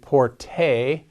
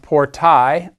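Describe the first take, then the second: First: The word ends with a plain 'eh' vowel. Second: The word ends with an 'eye' diphthong. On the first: "in ecclesiastical Latin, I believe porte is often the pronunciation" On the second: "It's pronounced portai"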